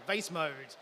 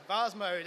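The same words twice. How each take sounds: First: "vase" said to rhyme with face, vayss; American pronunciation. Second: "vase" said as vahz, Australian style; Australian pronunciation. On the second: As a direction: give "vase" a long open ah, like vahz mode. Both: Shown as a demonstration. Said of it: "as I have to say in my Australian accent".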